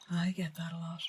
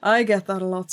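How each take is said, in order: First: Breathy aside, much softer, almost voiceless; whisper. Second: Said in the usual way. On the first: Real, not acted. Streamer whispers to chat Cerberus, a hushed aside. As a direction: mutter it under your breath like a secret. Repeats the line whispered to himself.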